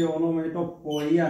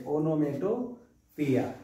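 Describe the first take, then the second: First: ओनोमैटोपोइया with a full poi-ya ending, given as the form not to say; wrong pronunciation. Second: ओनोमैटोपिया said slowly as o-no-mai-to-pi-ya, no poi sound; correct pronunciation. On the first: Teacher showing students the wrong way to say ओनोमैटोपोइया. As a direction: say ओनोमैटोपोइया as the mistake students make. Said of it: "नहीं बोलेंगे". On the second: Teacher correcting students' pronunciation of ओनोमैटोपिया. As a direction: slowly give the right form ओनोमैटोपिया. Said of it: "इसे ओनोमैटोपोइया नहीं बोलेंगे". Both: Shown as a demonstration.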